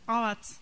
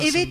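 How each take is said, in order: First: The word is said with open a vowels. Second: The word is said with plain e vowels. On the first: The speaker calls it wrong. "Zaten bak E harfi yok onlarda" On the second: The speaker calls it right. "evet demiyor böyle"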